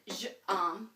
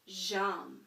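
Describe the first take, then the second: First: The vowel of je is kept, two separate words. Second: The vowel of je is dropped, words run together. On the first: The speaker calls it wrong. "that doesn't sound French. That sounds weird" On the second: The speaker calls it right. "take that E off in order to run them together"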